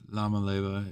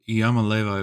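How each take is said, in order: First: The name begins with an L sound. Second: The name begins with a Y sound. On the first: The name is spelled with an L. "if it's an L" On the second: The name is spelled with an I. "if it's an I"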